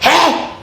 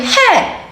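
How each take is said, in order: First: It sounds like a scolding call to stop. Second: It sounds shocked and surprised.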